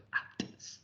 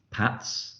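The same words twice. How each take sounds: First: "pats" split slowly into separate letter sounds; sounded out. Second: Said in the usual way. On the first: Shown as a demonstration. Teacher showing a word to blend, "pats" segmented.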